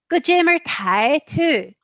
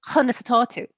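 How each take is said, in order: First: It is said in a Belfast Irish accent. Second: It is said in a Waterford Irish accent.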